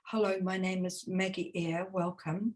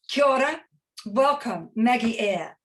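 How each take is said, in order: First: It is said quietly, with little energy. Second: It is said loudly, with lively energy.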